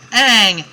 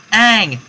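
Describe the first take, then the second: No difference in how they are said.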